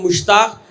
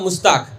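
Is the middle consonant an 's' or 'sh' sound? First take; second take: sh; s. First: The middle consonant is a 'sh' sound. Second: The middle consonant is an 's' sound. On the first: A native Urdu speaker says it. "मैं अगर कहूँगा तो आप कहेंगे कि मुश्ताक" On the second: A speaker of another language says it. "शीन को सीन बना देगा"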